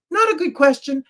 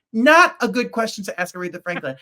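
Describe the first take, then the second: First: Higher and louder, stress on Not; emphatic. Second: Said in the usual way. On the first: Real, not acted. Telling co-hosts the question was bad, higher and emphatic. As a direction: hit Not hard, appalled.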